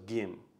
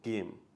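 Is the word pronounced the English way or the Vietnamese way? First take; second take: Vietnamese; Vietnamese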